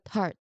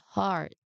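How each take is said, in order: First: The vowel is said short. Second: The vowel is said long. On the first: The speaker calls it wrong. "not heart" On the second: The speaker calls it right. "This one is a long sound"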